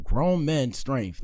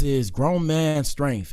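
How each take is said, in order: First: Grown men strength drawn out slowly, word by word; slow emphasis. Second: Grown man strength drawn out slowly, each word weighted; emphatic, slow. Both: Real, not acted. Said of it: "If you know, you know".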